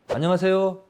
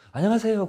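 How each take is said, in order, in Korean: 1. 그 인사는 딱딱하고 무뚝뚝하게 들려요. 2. 그 인사는 부드럽고 따뜻하게 들려요. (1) "이렇게 딱딱하게 이야기하는 거" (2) "얼마나 좋습니까, 듣기"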